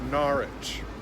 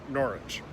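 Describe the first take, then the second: First: The vowel in the word is drawn out. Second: The vowel in the word is short. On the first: This is how local people say it. "They make it sound more like Norwich, so a longer ah" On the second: This is the usual correct pronunciation. "Most people that know how to pronounce it, pronounce it Norwich"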